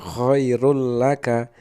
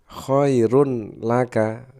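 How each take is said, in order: First: The n merges into the following l. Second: The n is pronounced before the l. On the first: This is how it is recited. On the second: This is how it is written.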